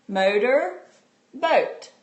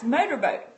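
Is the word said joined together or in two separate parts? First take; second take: separate; joined. First: The two parts are said separately with a pause. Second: The two parts are said quickly as one word. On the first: "My turn" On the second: "Now I'm going to say it fast"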